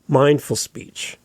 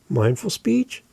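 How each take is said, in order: First: The voice falls at the end. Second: The voice rises at the end. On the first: "Here we go" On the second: "I went up. ... that was up talk"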